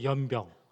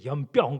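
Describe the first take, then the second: First: The word is said softly with weak emphasis. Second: The word is said forcefully with strong emphasis. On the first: The speaker calls it right. "좀 약하게 하니까" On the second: The speaker calls it wrong. "강조해서 연병이라고 하니까"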